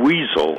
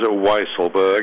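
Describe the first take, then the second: First: The first syllable sounds like 'weasel'. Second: The first syllable sounds like 'wise'. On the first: The speaker calls it wrong. "it's not the more tempting Weasel" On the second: The speaker calls it right. "as in wise"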